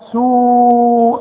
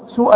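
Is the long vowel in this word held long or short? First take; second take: long; short. First: The long vowel is held for four counts. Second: The long vowel is cut short. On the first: The speaker calls it right. "ده مد لا واجب لازم تمد" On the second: The speaker calls it wrong. "ما تقولش سوء"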